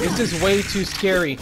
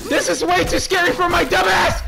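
First: Said in the usual way. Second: High, loud frightened yell; shrieked high-pitched complaint; panicked scream. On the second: Real, not acted. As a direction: scream it in terror at the game. Repeats it in panic.

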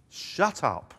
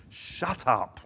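First: Higher and louder, a stronger second command; escalating stern shout; rising rebuke. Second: Firm, louder command to silence; a first firm rebuke; stern command. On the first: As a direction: hit it harder the second time. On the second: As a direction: shut them down with authority. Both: Acted. Jesus commanding the demons.

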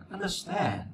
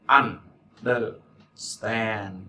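First: Understand with the weight on stand, pitched higher and falling at the end; stress on stand. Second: Understand drawn out very slowly, syllable by syllable; slow model word. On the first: Teacher repeating Understand for the class, higher with stress on stand. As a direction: say Understand again, higher, and let stand carry it. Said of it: "Trọng âm mà nó". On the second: Teacher modeling understand for students, very slow and drawn out. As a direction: stretch understand out slowly so students catch every sound. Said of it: "Trọng âm mà nó, trọng âm stand".

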